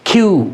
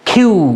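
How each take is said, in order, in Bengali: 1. প্রথম ব্যঞ্জনে বাতাসের জোরালো ফুঁ আছে। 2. প্রথম ব্যঞ্জনে বাতাসের জোরালো ফুঁ আছে।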